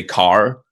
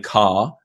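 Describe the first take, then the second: First: "car" with the final R strongly pronounced; hard R. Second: Said in the usual way. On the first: Shown as a demonstration. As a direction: hit a West Country hard R at the end of "car". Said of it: "they have hard R's". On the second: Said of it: "instead of saying car".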